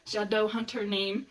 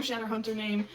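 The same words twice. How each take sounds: First: "Shadowhunter name" said slowly, each syllable full; slow down and fully sound the "ow" in "Shadowhunter"; careful enunciation. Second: Said in the usual way. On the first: Retold or imitated. Repeats the term more carefully.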